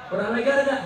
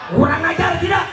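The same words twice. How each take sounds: First: Said in the usual way. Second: High, loud indignant call; outraged rally question; rallying shout. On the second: Real, not acted. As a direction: shout it to rouse the crowd. Rallying crowd for a response.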